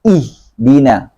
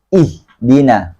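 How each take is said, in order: No difference in how they are said.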